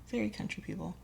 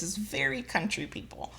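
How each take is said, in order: First: Much softer repeat of very country people; an under-the-breath echo of very country people. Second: Said in the usual way. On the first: Real, not acted. Quiet repeat for emphasis.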